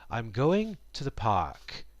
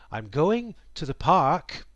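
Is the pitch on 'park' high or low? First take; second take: low; high. First: The pitch drops low on park. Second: The pitch stays high on park. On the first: The sentence is finished. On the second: More is coming after this.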